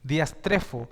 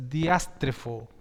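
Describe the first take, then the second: First: "diastrefo" con acento en la E; corrected stress. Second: "diástrefo" con acento en la primera A, lento; wrong stress. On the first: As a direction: di "diastrefo" cargando la E. ("diastrefo" bien acentuado en la E) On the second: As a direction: di "diástrefo" cargando la A. ("diástrefo" mal acentuado en la A) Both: Shown as a demonstration. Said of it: "perdón, porque es con un acento en la E".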